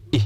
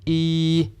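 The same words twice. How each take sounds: First: "e" cut very short; a brief, clipped "e"; short vowel E. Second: "e" held long and level, higher; a long, steady "ee"; long vowel E. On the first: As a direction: say "e" as a quick "i". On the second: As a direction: sustain "e" as "eee". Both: Shown as a demonstration. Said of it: "get the difference by saying".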